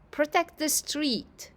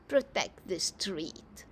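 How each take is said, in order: First: The phrase is spoken clearly and distinctly. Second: The phrase is mumbled quietly and indistinctly. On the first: The speaker calls it wrong. "that's not a mumble, right?" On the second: The speaker calls it right. "Let's try again"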